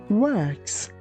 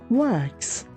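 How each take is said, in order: The two takes are said the same way.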